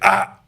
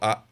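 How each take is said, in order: First: It is said loudly and forcefully. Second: It is said softly and mildly.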